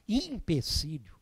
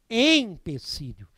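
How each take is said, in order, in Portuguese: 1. A palavra começa com som de 'i'. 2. A palavra começa com som de 'e'. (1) "é muito comum nós ouvirmos por aí a, a, a, se falar empecilho. Não" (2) "Se a palavra é escrita com E, devemos falar empecilho"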